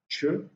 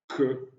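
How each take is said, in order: First: The first consonant is a soft ch sound. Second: The first consonant is a hard k sound. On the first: "mais sont prononcés de manière palatalisée" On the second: "ne sont plus prononcés de manière dure"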